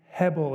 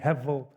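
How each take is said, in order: First: The middle consonant is a clear B sound. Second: The middle consonant is almost a V sound.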